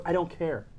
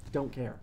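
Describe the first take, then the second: First: Said in the usual way. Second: Softer, lower echo to himself; quiet repeat. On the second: Real, not acted. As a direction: let it fall away under the breath. Defiant repeat, dropped low.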